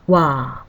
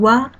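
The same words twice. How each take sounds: First: The vowel is held twice as long. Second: The vowel is held briefly.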